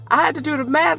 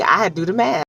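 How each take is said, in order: First: High, fast incredulous repeat. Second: Said in the usual way. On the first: Real, not acted. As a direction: say it again, baffled and much higher. Repeats phrase in disbelief.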